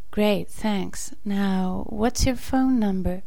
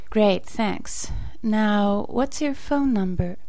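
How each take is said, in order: Both takes have the same delivery.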